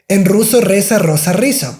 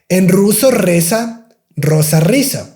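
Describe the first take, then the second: First: The phrase is said at a fast pace. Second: The phrase is said at a slow pace. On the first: "I'm saying a little bit fast" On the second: "you can say that slowly"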